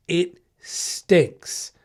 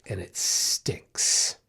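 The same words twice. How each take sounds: First: Said in the usual way. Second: Whispered very slowly and much softer; drawn-out whisper. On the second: Real, not acted. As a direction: breathe "stinks" out as a slow, weary whisper. Lamenting getting bitten at work.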